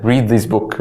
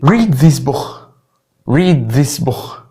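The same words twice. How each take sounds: First: Said in the usual way. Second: "book" ending in a throaty kh; Scouse k as kh. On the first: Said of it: "المفروض". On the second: Shown as a demonstration. Teacher mimicking Liverpool for learners, "book" said as bookh. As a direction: scrape the k of "book" into Arabic خ. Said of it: "بصوت الكي بتتحول لخ".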